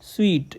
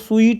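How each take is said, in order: First: The word sounds like 'sweet'. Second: The word sounds like 'suit'. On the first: The speaker calls it right. "इसका जो correct pronunciation है वो मिठाई वाला है स्वीट" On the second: The speaker calls it wrong. "इसको स्वीट नहीं कहना"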